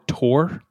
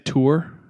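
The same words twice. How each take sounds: First: The vowel sounds like the vowel in 'more'. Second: The vowel sounds like the vowel in 'too'. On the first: "or you say it more tour, like T-O-R-E" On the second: "you could say tour"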